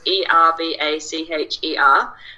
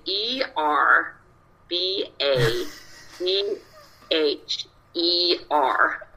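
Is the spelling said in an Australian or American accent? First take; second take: Australian; American. First: The letters are spelled in an Australian accent. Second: The letters are spelled in an American accent.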